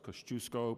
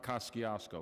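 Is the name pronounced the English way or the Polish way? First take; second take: Polish; English. First: The name is said with a Polish pronunciation. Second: The name is said with an anglicized pronunciation. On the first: The speaker calls it right. "it's Kosciuszko, because the Sisters of the Holy Nazareth taught me that" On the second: The speaker calls it wrong. "it's not Kosciuszko"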